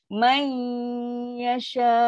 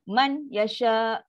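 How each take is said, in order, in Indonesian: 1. Huruf n menyatu ke y dengan dengung sengau. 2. Huruf n dibunyikan dengan jelas sebelum y. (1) "fifty percent bunyi nun, fifty percent bunyi ya" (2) "Itu izhar. Kan nun bunyi jelas man"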